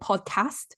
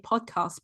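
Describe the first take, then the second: First: It is said in a northern English accent. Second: It is said in a southern English accent.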